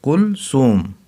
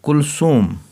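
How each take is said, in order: No difference in how they are said.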